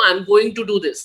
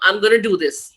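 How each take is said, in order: First: The words 'going to' are said in full. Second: The words 'going to' are reduced to 'gonna'. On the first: This is how a British speaker would say it. "a Britisher will always say" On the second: This is how an American speaker would say it. "an American will say"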